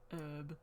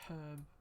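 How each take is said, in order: First: The word begins with a vowel, H silent. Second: The word begins with an audible H sound. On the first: This is the form others insisted on. "I've been told my whole life by teachers that it should be herb" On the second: This is the speaker's own habit. "I say herb, It has the H in it"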